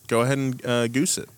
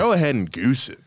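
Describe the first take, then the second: First: It is said plainly, without much force. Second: It is said loudly and forcefully, from the chest. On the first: The speaker calls it wrong. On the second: The speaker calls it right.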